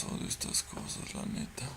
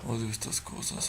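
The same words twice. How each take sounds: First: Soft whisper. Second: Said in the usual way. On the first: Real, not acted. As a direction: whisper it so nothing hears you. Scared player whispering.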